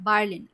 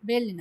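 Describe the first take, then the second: First: The first vowel sounds like 'a' in father. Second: The first vowel sounds like 'e' in bed. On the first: The speaker calls it right. "এ এবং আর একসাথে থাকলে আ উচ্চারণ হয়" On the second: The speaker calls it wrong. "বের্লিন না"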